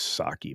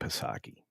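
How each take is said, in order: First: The name begins with a plain 's' sound. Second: The name begins with a sounded 'p'. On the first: "I know it's Saki" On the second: "I like saying Psaki because it's like Paschetti"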